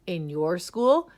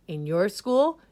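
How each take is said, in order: Both takes have the same delivery.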